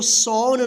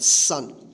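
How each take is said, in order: First: The vowel sounds like 'aw'. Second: The vowel sounds like 'uh'. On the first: The speaker calls it wrong. "इसको सौन नहीं पढ़िएगा" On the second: The speaker calls it right. "यहाँ पे अ उच्चारण होगा"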